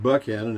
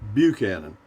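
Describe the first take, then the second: First: The name is said in the local pronunciation. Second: The name is said in the standard pronunciation. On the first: This is how people living there say it. "I pronounce it Buckhannon, and so does everyone else around here" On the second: This is the form the voice assistant recognizes. "She understands Buchanan"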